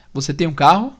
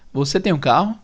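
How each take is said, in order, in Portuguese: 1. A voz sobe no final. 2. A voz sobe no final.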